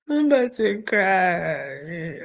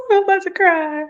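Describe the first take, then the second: First: Slow, choked-up crying voice; slow teary voice breaking; real tears. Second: High, loud teary laugh; giggling on the edge of crying; laughing through tears. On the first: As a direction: let the tears take over. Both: Real, not acted.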